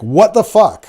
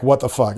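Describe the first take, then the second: First: High, loud mock outrage; imitating an appalled what the fuck; shocked reaction. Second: Said in the usual way. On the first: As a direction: blurt it like you can't believe what you just saw. Recipient reacts to a shocking pic.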